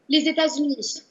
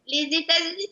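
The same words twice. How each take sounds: First: It is said in her normal voice. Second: It is said in a put-on elf voice.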